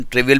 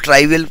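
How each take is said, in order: First: ट्रिवियल, opening "tri" as in "trip"; TRIV-ial pronunciation. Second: ट्राइवियल, opening like English "try"; TRY-vial pronunciation. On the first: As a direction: say ट्रिवियल with a short "i" in the first syllable. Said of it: "लेकिन ट्रिवियल भी कुछ लोग पढ़ते हैं". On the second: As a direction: say ट्राइवियल with a long "eye" in the first syllable. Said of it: "कुछ लोग ट्राइवियल पढ़ते हैं". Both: Shown as a demonstration.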